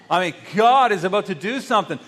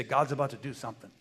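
First: Louder, showing how it should sound; enthusiastic. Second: Said in the usual way. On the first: Shown as a demonstration. Preacher shows the church real excitement. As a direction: say it like you mean it. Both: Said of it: "that was not enthusiastic at all".

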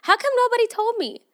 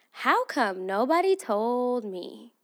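First: High, loud exasperated cry; exasperated outcry. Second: Said in the usual way. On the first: Real, not acted. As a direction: cry it out, fed up.

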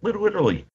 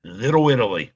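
First: Higher-pitched echo of the wife; imitated wife. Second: Said in the usual way. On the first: Wife prompting the storyteller with a place, imitated in higher voice. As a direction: mimic a prompt in a raised voice. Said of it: "My wife just went".

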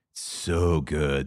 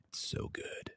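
First: Slow, stretched out, relishing each word; drawn-out savoring. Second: Breathy hush of pure pleasure; savoring whisper. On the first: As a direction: linger over it like a sip. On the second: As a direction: whisper it like a secret treat. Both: Real, not acted.

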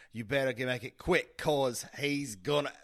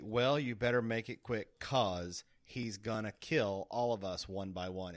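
First: Imitating her Brooklyn accent, loud; a hammed-up Brooklyn read of "gonna"; mock Brooklyn accent. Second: Said in the usual way. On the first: Shown as a demonstration. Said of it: "what she says is". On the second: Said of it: "They say".

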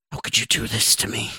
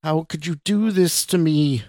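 First: Raspy, whispered reproach; whispered cry. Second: High, strained cry at contained volume; mock scream. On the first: Wronged woman on the bed accuses Scott, whispered cry. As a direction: cry it out under the breath, in a whisper. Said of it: "the woman cried". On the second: Woman screams at terrified Scott, contained high scream. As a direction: scream it in pitch, holding the volume back. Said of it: "this time in a scream so loud". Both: A narrator's reading.

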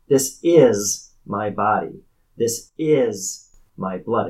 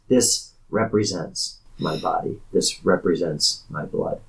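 First: IS stretched out and hit hard in each line; slow and weighty, lean heavily on "is"; emphatic IS. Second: Said in the usual way. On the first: Shown as a demonstration. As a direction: say IS as if in capital letters. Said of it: "put it in italics or in capital letters". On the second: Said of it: "what he actually means to say is".

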